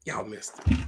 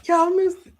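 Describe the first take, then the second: First: Said in the usual way. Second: Very high, loud exclamation; high-pitched pulpit shout; excited preacher's cry. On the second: Real, not acted. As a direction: cry it out to wake the congregation.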